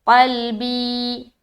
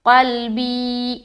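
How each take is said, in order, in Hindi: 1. यह शब्द लंबी 'ee' मात्रा पर ख़त्म होता है। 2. यह शब्द लंबी 'ee' मात्रा पर ख़त्म होता है।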